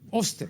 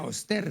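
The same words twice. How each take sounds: First: The stress is on the first syllable. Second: The stress is on the last syllable. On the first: This is how everyone said it. "eran pues así" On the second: Nobody said it this way. "Nadie decía Oster"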